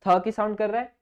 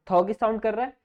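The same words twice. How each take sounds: The two takes are said the same way.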